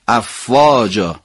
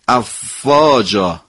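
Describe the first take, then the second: Both takes have the same delivery.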